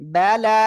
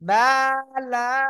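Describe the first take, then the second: First: The first vowel is short and quick. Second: The first vowel is drawn out long. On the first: The speaker calls it right. "হরকতের উচ্চারণ তাড়াতাড়ি পড়তে হবে" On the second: The speaker calls it wrong. "এভাবে যদি টেনে পড়েন ভুল হবে"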